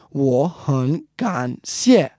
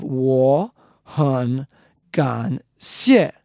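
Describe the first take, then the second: First: 我 and 很 rising, 感 dipping, 谢 falling; tone change. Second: 我很感 each dipping and rising, 谢 falling; full third tones. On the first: Teacher shows tone change, 我 and 很 turned to rising tone. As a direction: slowly say 我很感谢 with the first two syllables rising. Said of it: "because there are three third tones in a row". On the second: Teacher shows unchanged tones, 我很感 each dipping then rising. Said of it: "goes down and comes back up". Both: Shown as a demonstration.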